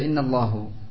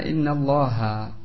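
First: The word ends with a 'u' vowel. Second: The word ends with an 'a' vowel. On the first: The speaker calls it wrong. "Jadi dia baca innallahu. ... Keliru salah dalam lafaz" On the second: The speaker calls it right. "Harusnya dibaca innallaha"

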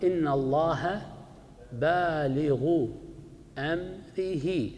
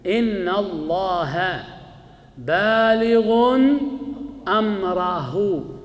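First: Baligh has no -n ending; amrih ends in -i. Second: Baligh ends in -un; amrah ends in -u. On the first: The phrase is a possessive construction. "هذه قراءتنا" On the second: The second word is the object of the participle. "قراءة ثانية نون بالغ"

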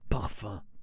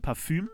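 First: It is said with a fully French pronunciation. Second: It is said with a German ü vowel. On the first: "Oder man sagt wirklich französisch Parfum" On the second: "es gibt ja Parfüm"

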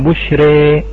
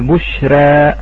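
First: A light r with the final vowel strongly toward 'e'. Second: A light r with the final vowel slightly toward 'e'. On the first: "والإمالة الكبرى" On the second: "فكيف نقلل"

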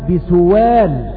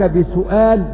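First: The glottal stop is replaced by a w sound. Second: The word keeps a glottal stop before the vowel.

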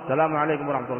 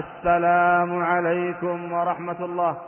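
First: The phrase is said quickly and run together. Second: The phrase is said slowly and drawn out. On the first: "ما يكون سلامه درجا" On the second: "يسلم بصورة بطيئة"

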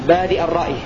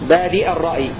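No difference in how they are said.

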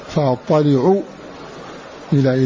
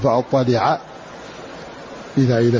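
First: The first word ends with a 'u' vowel. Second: The first word ends with an 'a' vowel. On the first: "قرأ السبعة كلهم إلا حفص برفع العين" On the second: "وقرأ حفص وحده"

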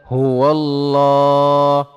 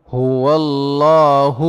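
The two takes are said the same way.

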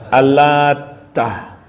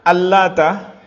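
First: The t sound is held long and doubled. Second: The t sound is short and single. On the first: The name carries a different meaning in this reading. "bagaimana bacanya kalau ditasydid? Al-Lata. Jadi taknya ditasydid" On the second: The name refers to one idol, read in the common way. "membaca Al-Lata taknya tanpa tasydid"

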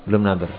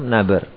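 No difference in how they are said.

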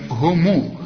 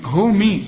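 First: The word ends with a 'u' vowel after the m. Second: The word ends with an 'i' vowel after the m. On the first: The speaker calls it right. "الميم ضمها" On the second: The speaker calls it wrong. "ما تقولش"

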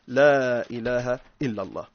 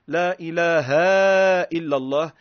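First: The vowel in 'ilah' is kept short. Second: The vowel in 'ilah' is drawn out long. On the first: It denies any god but God. The speaker calls it right. "بل النطق الصحيح" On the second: It implies more than one god besides God. The speaker calls it wrong. "لا إله بالمد إلا الله"

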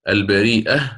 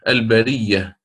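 First: A glottal stop comes before the final syllable. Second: A doubled y sound replaces the glottal stop. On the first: It comes from the verb meaning God created mankind. "ترد بالهمز" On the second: It comes from the verb meaning to shape something anew. "وترد بتركه"

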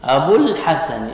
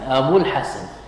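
First: The final vowel of abu is held long. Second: The final vowel of abu is cut short. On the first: The speaker calls it wrong. "لا تقول" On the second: The speaker calls it right. "فحذفت الواو"

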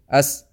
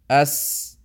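First: The s is cut short with little breath. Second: The s lets breath flow out freely. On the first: The speaker calls it wrong. "we will not say this" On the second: The speaker calls it right. "the breath should come out of your mouth quite easily"

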